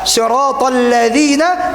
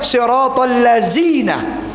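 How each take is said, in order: First: The word has a 'dh' sound, like 'this'. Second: The word has a 'z' sound instead. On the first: The speaker calls it right. "mengubah zal dengan zai" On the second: The speaker calls it wrong. "dia baca siratal lazina"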